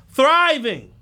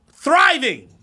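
First: Thriving shouted loud, falling; correcting survival to thriving; stress on thriving. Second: Thriving punched loud and falling; the key word of the rant; stress on thriving. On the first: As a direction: land hard on thriving. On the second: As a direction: hit the word thriving hard. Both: Real, not acted. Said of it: "Not survival, thriving".

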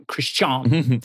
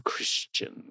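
First: Christian with a stretched final "-stahn", falling; drawled Christian. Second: Said in the usual way. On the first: Shown as a demonstration. Co-host mocking the word Christian from the article, drawn out.

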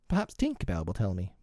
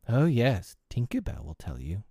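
First: Mildly piqued suggestion; a touch of huffiness; a little nettled. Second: Dismissive retort, falling away; scornful. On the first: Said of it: "a little nettled". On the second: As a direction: throw it back with scorn. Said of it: "Wendy retorted scornfully". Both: A narrator's reading.

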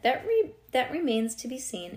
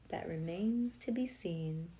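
First: Raised, lightly mysterious line. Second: Slow, drawn-out mysterious voice. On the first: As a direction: read it with a touch of mystery, pitched up. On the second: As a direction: stretch it out slowly like a secret. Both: A narrator's reading. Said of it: "in a very mysterious voice".

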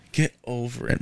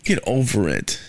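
First: Muttered second get over it; softer repeat. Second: Said in the usual way. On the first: Retold or imitated. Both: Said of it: "I'm like".

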